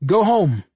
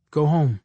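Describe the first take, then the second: First: Loud, high command to the masses; big, raised public order; big announcing voice. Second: Said in the usual way. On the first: A narrator's reading. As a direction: proclaim it loudly to a whole crowd. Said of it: "I made my voice big and announced to the masses". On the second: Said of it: "I spoke clearly".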